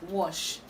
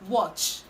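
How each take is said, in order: First: The word ends with a soft sh sound. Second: The word ends with a sharp ch sound. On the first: The speaker calls it wrong. "It's not sh, it's not wash" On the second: The speaker calls it right. "It's watch"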